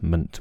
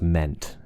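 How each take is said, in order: First: The vowel is a weak, relaxed schwa. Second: The vowel is a full, clear vowel. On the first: The speaker calls it right. "ment with a schwa" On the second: The speaker calls it wrong. "not meant"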